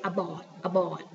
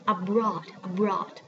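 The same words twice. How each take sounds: First: "abroad" without the r, like "abawd"; learner's "abroad", br reduced to plain b; mispronunciation from childhood. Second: "abroad" with a clear br cluster; correct pronunciation. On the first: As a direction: drop the r from "abroad". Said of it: "I always say abroad". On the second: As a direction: say "abroad" keeping the r after the b. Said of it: "to say this word". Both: Shown as a demonstration.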